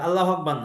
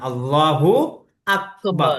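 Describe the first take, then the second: First: Allah runs straight into Akbar without a vowel. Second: An 'u' vowel links Allah to Akbar. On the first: The intended meaning does not come through. The speaker calls it wrong. "আল্লাহ আকবার না" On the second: God is the greatest. The speaker calls it right. "আল্লাহু আকবার অর্থ হলো আল্লাহ সব থেকে বড়"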